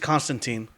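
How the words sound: The name is said the American way. "the American pronunciation is Constantine"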